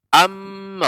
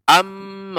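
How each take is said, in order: First: The m is pressed and doubled. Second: The same.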